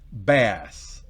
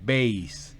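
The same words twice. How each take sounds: First: The vowel is a short 'a' sound. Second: The vowel is a long 'ay' sound. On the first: It names a kind of fish. "Mientras que bajo como pescado... es bass" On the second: It names the low musical instrument or voice. "Bajo en música es bass. Es decir, debería tener la rayita"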